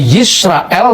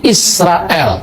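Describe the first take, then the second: First: The word starts with a y sound. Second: The word starts with a vowel sound. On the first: This is the form that keeps the original letter. "huruf Yod atau Y dalam bahasa Ibrani" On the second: This is the eastern dialect form. "di Syria Timur dipakai dialek Shema Israel, bukan Yisrael"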